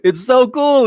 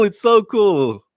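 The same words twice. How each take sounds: First: High, loud, delighted; excited gush. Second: Drawn out slowly, relishing each word; slow, relishing echo; slower savoring repeat. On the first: Gushing about the show. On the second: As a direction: linger on it as if tasting it. Repeating praise, savouring it. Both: Real, not acted.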